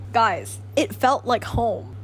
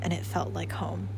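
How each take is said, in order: First: Slow, louder, every word leaned on; stressed and drawn out; emphatic repeat. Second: Said in the usual way. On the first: Real, not acted. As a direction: drive home how much it means.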